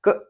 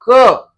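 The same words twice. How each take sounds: First: The consonant is cut off with no vowel. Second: The consonant ends with a short 'a' vowel. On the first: The speaker calls it wrong. "वरना इसका क क क ऐसे ही होगा, हम बोल नहीं सकेंगे पूरा" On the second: The speaker calls it right. "हम क ऐसे उच्चारण करते हैं"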